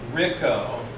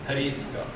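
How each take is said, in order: First: The name starts directly with the r sound. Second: A light h sound comes before the r. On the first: This is the simplified form most Americans use. "Rico, like Rick O" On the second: This is closer to the original Slovak name. "in Slovak, it's something like Hricko"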